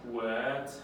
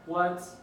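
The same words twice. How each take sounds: First: The pitch dips low. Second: The pitch stays level and high.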